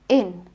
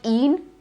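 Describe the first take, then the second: First: The vowel is a short i sound. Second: The vowel is a long ee sound. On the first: The speaker calls it right. "it is in" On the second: The speaker calls it wrong. "It's not in"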